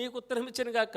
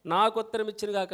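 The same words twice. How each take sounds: First: Said in the usual way. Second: నాకు said louder as the corrected word; correcting నీకు to నాకు, stress on నాకు. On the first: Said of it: "కాదు". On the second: Shown as a demonstration. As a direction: lean on నాకు. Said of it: "అని చదవండి".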